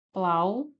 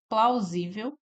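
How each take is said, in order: First: "Plausível" split, first syllable, long pause, then the rest. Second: Said in the usual way. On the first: Shown as a demonstration. Teacher dividing the word for students, "Plausível" in separated syllables. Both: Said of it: "Plausível é uma paroxítona".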